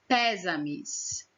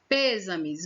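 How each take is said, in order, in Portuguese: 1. A primeira vogal é aberta. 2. A primeira vogal é fechada. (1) "Vamos tirar o circunflexo. Ficou como?" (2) "Ele fecha o som da vogal"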